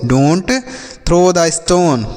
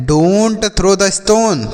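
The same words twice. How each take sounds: First: Said in the usual way. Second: Very slow, every word clear; slow model sentence. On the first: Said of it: "तो इस तरीके से आप बोलेंगे". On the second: Shown as a demonstration. Teacher slowly models "Don't throw the stone" for the children. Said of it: "तो आप बोल सकते हैं".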